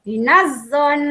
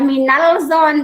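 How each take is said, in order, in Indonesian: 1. Bunyi l melebur ke dalam bunyi z yang ganda. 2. Bunyi l dibaca sebelum bunyi z. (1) "alif lam dibaca lebur ke dalam huruf za" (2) "Bukan dibaca minal zon"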